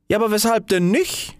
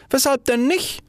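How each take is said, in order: First: High, innocent question; a small firework asking brightly; little fire ball. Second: Even higher, eager repeat; little fire ball, repeated. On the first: Little fire ball questions the rocket, high and innocent. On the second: Little fire ball repeats its question, eager and high. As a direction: ask it again, more eagerly. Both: Acted. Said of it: "rief eine kleine Feuerkugel aus".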